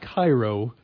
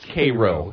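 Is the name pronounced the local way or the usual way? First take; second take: usual; local. First: The name gets its usual, widely known pronunciation. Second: The name gets the local Middle America pronunciation. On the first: This is how it is said elsewhere. The speaker calls it wrong. "it's not Cairo" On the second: This is how the locals say it. The speaker calls it right. "this is Middle America ... it's Cairo"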